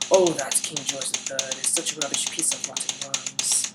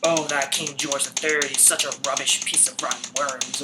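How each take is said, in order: First: It is said in a British accent. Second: It is said in an American accent.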